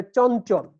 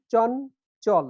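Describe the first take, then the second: First: Said in the usual way. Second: "চন চল" as two separate syllables. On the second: Shown as a demonstration. Teacher counting the word's syllables, split in two. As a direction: break it into "চন", then "চল". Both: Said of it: "এখানে দুইটা syllable আছে".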